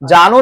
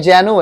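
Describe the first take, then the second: First: The first vowel is a long 'aa'. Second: The first vowel is an 'ae' sound. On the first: The speaker calls it wrong. "जानू नहीं है" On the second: The speaker calls it right. "जैनू है"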